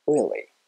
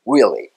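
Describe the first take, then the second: First: British "really" with relaxed, unrounded R; British English accent. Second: Loud American "Really" with W-like R; American English accent. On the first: Teacher alternates accents for learners, relaxed British "really". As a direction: spread the lips for a loose British "really". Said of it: "イギリス英語". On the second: Teacher alternates accents for learners, loud American "Really". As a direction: round the lips for an American "Really", punched louder. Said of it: "アメリカ英語、". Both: Shown as a demonstration.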